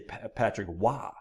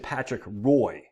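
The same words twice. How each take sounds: First: The name is said the French Canadian way. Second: The name is said the English way. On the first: "Us French Canadians say Patrick Roy" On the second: "Some people say Patrick Roy"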